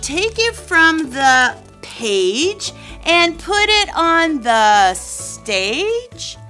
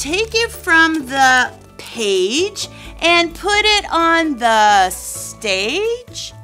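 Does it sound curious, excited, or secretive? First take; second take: curious; curious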